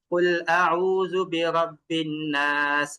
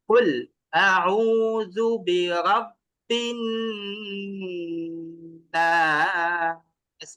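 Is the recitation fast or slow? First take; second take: fast; slow. First: It is recited quickly without lengthened vowels. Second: It is recited slowly with lengthened vowels. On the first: The speaker calls it wrong. "আপনি যদি এইভাবে পড়ে যান ... কোন সৌন্দর্য আছে?" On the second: The speaker calls it right. "আপনি যদি এইভাবে পড়েন ধীরে ধীরে"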